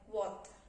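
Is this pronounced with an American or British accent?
British. It is said in a British accent. "in British, it sounds like"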